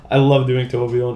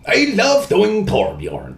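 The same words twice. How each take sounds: First: Said in the usual way. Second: High, slow dwarf voice; Torbjorn voice. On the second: Retold or imitated. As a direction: say it as the little dwarf. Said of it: "favorite impressions to do".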